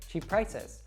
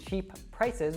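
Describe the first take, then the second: First: One P sound links the two words. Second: Both P sounds are pronounced separately. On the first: The speaker calls it right. "we drop that first P and then we link them together" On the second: The speaker calls it wrong. "instead of saying"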